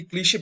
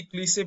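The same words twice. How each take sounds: First: ক্লিশে pronounced "klishe", with a sh sound. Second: ক্লিশে pronounced "klise", hissless sh replaced by plain s; ক্লিশে said with an s sound. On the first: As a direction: say ক্লিশে as "klee-shay", sh rather than s. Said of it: "অনেকে ক্লিশে বলে". (ক্লিশে-তে স্পষ্ট শ ধ্বনি দিয়ে "ক্লি-শে" উচ্চারণ) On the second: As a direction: say ক্লিশে as "klee-say", with s instead of sh. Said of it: "এর উচ্চারণটা অনেকেই ক্লিশে বলে". (ক্লিশে-র শ-কে ইংরেজি s-এর মতো করে "ক্লিসে" উচ্চারণ) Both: Shown as a demonstration.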